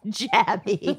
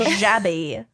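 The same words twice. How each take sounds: First: Jabby with a hard ch sound, laughing; hard J name. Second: Jabby with a soft zh sound; soft J name. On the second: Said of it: "maybe it's Gabby". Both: Shown as a demonstration.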